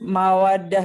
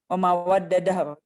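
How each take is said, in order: First: The two d sounds are merged into one. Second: The two d sounds are split with a vowel. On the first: The speaker calls it right. "di sini kan harusnya kan mawadah ya" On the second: The speaker calls it wrong. "tapi di sini memawaddadah ... Karena dia nggak sesuai sama kias sorfi"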